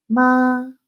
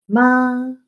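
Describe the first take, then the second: First: The pitch stays high and level. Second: The same.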